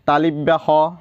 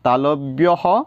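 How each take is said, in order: First: An extra 'i' vowel follows 'tal'. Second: No extra vowel follows 'tal'. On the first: The speaker calls it wrong. "আমাৰ বহুতে এইটো বৰ্ণ উচ্চাৰণ কৰে তালিব্য হ তালিবা হ এনেকৈ" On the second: The speaker calls it right. "এনেকুৱা নহয় ক'ব লাগে তালব্য হ"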